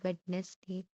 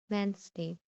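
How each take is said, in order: First: The d in the middle is pronounced. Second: The d in the middle is silent. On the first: The speaker calls it wrong. "mostly people pronounce this as Wednesday, but it is incorrect" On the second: The speaker calls it right. "The correct pronunciation is Wednesday"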